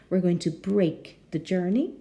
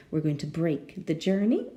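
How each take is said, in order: Both takes have the same delivery.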